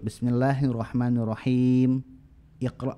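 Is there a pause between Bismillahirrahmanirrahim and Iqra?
yes. There is a pause before Iqra. The speaker calls it right. "dipotong ayat per ayat, maka i-nya muncul"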